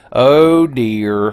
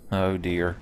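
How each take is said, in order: First: Louder, drawn-out OH, louder and higher; louder oh dear. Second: Said in the usual way. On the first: Shown as a demonstration. Streamer repeats it louder, bracing for the centipede demon. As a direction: lean on the "Oh" and push it out.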